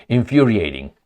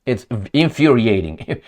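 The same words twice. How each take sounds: First: Infuriating said through a laugh; a wry chuckle on infuriating. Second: Said in the usual way. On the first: Real, not acted. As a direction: laugh as you repeat infuriating. Repeats the word, then laughs.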